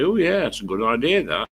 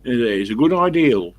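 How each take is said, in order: First: "idea" ending on a vowel, no L; standard "idea". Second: "ideal" with a final L, loud; Somerset "ideal". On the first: Showing what Somerset people won't say, "idea" without an L. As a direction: say "idea" without any L on the end. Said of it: "They won't say". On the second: Showing what Somerset people say, "ideal" with an L. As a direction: end "ideal" on a clear L, Somerset style. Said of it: "the Somerset people say that". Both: Shown as a demonstration.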